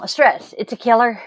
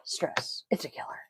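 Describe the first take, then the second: First: "stress" and "killer" said out loud and firm, a bit louder; punchy movie quote. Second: Sighing "stress. It's a killer." in a breathless whisper; whispered movie quote. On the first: Vlogger retelling the Anastasia bat's catchphrase, punched out louder. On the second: Tired vlogger whispering her pet movie line. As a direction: let it out on a sigh, barely voiced. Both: Retold or imitated. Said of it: "you guys have heard me say stress, it's a killer".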